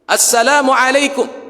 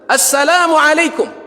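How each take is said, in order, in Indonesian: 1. Salamnya diucapkan dengan suara yang dinaikkan. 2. Salamnya diucapkan dengan suara yang paling keras. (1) "tinggikan lagi suaranya" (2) "lebih tinggi lagi suaranya"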